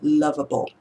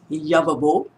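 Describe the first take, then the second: First: The word begins with an L sound. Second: The word begins with a Y sound. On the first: The speaker calls it right. "there's a L sound" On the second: The speaker calls it wrong. "he says it as lovable, okay, with a letter Y instead"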